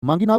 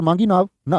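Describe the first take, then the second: First: "मांगी नाव" cut off before any "ना", rising on "नाव"; break after "नाव". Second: "मांगी नाव ना" as one phrase, falling on "ना"; break after "ना". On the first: Teacher showing students the other reading, rising on "नाव". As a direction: lift "नाव" and stop there. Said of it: "तो यहाँ केवट ना आने की बात है". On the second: Teacher asking students how to read it, closing on "ना". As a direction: join "ना" to "मांगी नाव" and close there. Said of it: "क्या बोलोगे?". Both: Shown as a demonstration.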